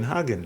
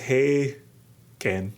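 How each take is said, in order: First: The first syllable sounds like 'hah'. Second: The first syllable sounds like 'hay'. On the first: "rather than like the Hagen in Hagen Dazs" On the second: "So he says Hey Ken"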